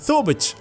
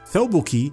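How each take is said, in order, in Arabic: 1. الصوت الساكن الأخير هو صوت ch. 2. الصوت الساكن الأخير هو صوت k بسيط. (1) "يتحول إلى ثوبتش" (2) "كاف مكسورة كي"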